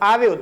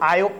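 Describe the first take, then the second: First: A V sound is heard in the middle. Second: No V sound is heard in the middle. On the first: This is the standard form. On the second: This is the Patni dialect form.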